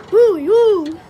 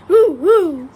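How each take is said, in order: First: Loud playful hooting. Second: Playful hooting. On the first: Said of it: "do it again". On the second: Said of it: "you make the face, I make the sound". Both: Pretend.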